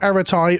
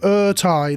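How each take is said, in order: First: The name is said with three syllables. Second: The name is said with two syllables. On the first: The speaker calls it wrong. "not Eratai" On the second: The speaker calls it right. "Ertai. There we go"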